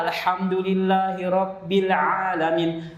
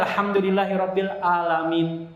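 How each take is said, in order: First: "alamin" opened on a throaty ain, slow and raised in pitch; recited with ain. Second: "alamin" begun on a plain open "a", no throat sound; recited without ain. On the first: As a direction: recite "Alhamdulillahirabbil alamin" slowly, voicing the ain. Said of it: "pun kena ainnya". ("alamin" dibaca dengan ain yang jelas) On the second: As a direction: recite "Alhamdulillahirabbil alamin" higher, dropping the ain. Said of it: "Ya nanti bacanya". ("alamin" dibaca tanpa ain) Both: Shown as a demonstration.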